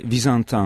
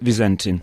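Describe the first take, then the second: First: The name is pronounced the French way. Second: The name is pronounced the English way. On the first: "vous pouvez le prononcer à la française" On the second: "à l'anglaise c'est Vizentin"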